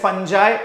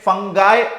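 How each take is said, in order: First: The middle consonant is a soft j sound. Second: The middle consonant is a hard g sound. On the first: "कुछ लोग इसे फंजाई pronounce करते हैं" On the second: "कुछ लोग इसे फंगाई pronounce करते हैं"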